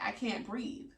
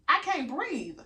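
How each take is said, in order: First: Softly imitated breathlessness; short of breath. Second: Raised pitch, emphatic exasperation; indignant insistence. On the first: Patient telling the anesthesiologist, softly short of breath. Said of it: "having a hard time breathing". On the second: Retold or imitated. Patient dismissed as anxious, indignantly insisting. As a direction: spell it out to someone not listening.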